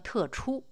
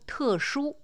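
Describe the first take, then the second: First: The second syllable begins with a ch sound. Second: The second syllable begins with an sh sound.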